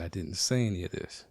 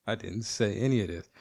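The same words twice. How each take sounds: First: Said in the usual way. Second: Said through a laugh; chuckling confession. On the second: Real, not acted. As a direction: laugh while you admit it.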